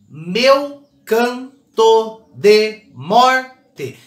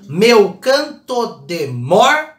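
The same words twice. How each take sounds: First: "meu canto de morte" drawn out very slowly, beat on "mor" of "morte"; syllable-stressed scansion. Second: "Meu canto de morte" very slow, each syllable apart, the final "te" dropped; syllable-stressed scansion. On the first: Teacher scanning the verse for students, very slow and stressed. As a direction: stretch every syllable and land on "mor". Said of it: "Qual que é a última sílaba mais forte?". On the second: Teacher scanning the line for the class, slow and counted. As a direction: count it out slowly, stopping on "mor". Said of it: "não conto o T".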